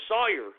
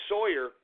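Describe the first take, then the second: First: "Sawyer" with an aw vowel, like SAW-yer; alternative name pronunciation. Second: "Sawyer" with an oy vowel, like SOY-er; uncertain name pronunciation. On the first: Host offering another guess at the name, "Sawyer" said as SAW-yer. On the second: Host guessing a reporter's last name, "Sawyer" said as SOY-er. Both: Shown as a demonstration. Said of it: "mispronounce your last name".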